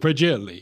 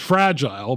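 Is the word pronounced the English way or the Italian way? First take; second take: Italian; English. First: It is said with an Italian-sounding pronunciation. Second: It is said with a plain English pronunciation.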